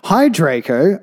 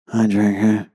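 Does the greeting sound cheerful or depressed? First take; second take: cheerful; depressed. First: The greeting is said in a normal, upbeat voice. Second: The greeting is said in a low, depressed voice. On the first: The speaker calls it wrong. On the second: The speaker calls it right.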